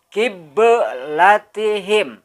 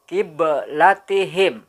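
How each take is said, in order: First: The b sound has a strong, exaggerated bounce. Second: The b sound has a light, small bounce. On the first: The speaker calls it wrong. "Terlalu berlebihan cara memantulkannya salah" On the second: The speaker calls it right. "Yang benar adalah kiblatihim"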